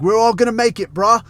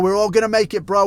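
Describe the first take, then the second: First: Hyped Aussie bodybuilder, higher and louder; rally the lads like an Australian fitness influencer; quoting the meme in an Aussie bro voice; Australian gym bro impression. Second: Hyped Aussie bodybuilder, higher pitched; rally the lads like an Australian fitness influencer; quoting the meme in an Aussie bro voice; Australian gym bro impression. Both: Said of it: "from one of this guy's little videos".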